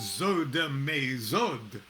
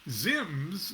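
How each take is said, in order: First: It is said with vowels between letters. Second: It is said as one short syllable. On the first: "We should sound out the letters" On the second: "all these consonants back to back"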